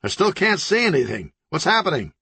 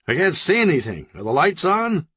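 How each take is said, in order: First: Higher, fretful blind ninja; anxious ninja. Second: Higher, puzzled blind ninja; confused ninja. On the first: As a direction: still lost and getting worried. Ninja still blind, more anxious. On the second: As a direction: grope for sight, baffled. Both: Acted.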